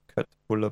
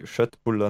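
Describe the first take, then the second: First: The word starts with a hard k sound. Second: The word starts with a soft sh sound. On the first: The speaker calls it wrong. "nicht Köttbullar beim IKEA" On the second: The speaker calls it right. "So wie Köttbullar"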